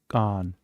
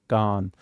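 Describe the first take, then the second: Both takes have the same delivery.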